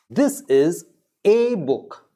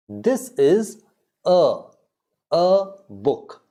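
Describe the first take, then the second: First: "a" said as a full AY in "this is a book"; emphasized A. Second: "a" as a schwa, "uh", before book; unemphasized A. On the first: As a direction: stress the A, pronounced like the letter name. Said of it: "I want to emphasize what book". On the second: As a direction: say "a book" with A reduced to uh. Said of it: "suppose I do not want to emphasize". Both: Shown as a demonstration.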